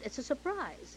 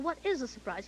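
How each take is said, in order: First: "surprise" pitched high, then falling; stress on SURPRISE. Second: "is" lifted high as the key word; stress on IS. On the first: William announcing something to the Governor, stress on surprise. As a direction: lift "surprise" high and let it drop. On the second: Governor asking back about the surprise, stress on is. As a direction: punch "is" in a puzzled question. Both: Retold or imitated.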